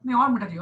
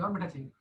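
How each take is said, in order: First: Said in the usual way. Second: Softer, dropping away; soft echo. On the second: Pretend. Teacher miming a sharbat taster, softly echoing the ask. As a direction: repeat it under your breath.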